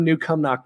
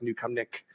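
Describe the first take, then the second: First: Said in the usual way. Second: New Cumnick, short "ick" in the last syllable; soft, offhand New Cumnick with "nick" for "nock"; guessed local pronunciation. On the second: Shown as a demonstration. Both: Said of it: "I'm sure it's, like".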